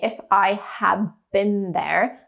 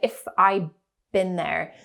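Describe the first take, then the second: First: The h sound at the start of have is heard. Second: The h sound at the start of have is dropped. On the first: "I did not say" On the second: "I said"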